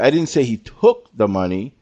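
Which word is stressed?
took. The stress is on "took".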